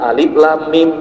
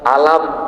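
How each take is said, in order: First: It is read as separate letter names. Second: It is read as one joined word. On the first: The speaker calls it right. "tapi dibaca alif lam mim" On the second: The speaker calls it wrong. "alam, tapi dibaca alif lam mim"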